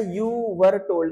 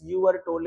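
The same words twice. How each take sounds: First: Very slow, word by word; slow reading. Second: Said in the usual way. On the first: Shown as a demonstration. Teacher dictates the passage slowly word by word. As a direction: read the English line slowly to the class. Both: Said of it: "ये passive में लिखा है sentence".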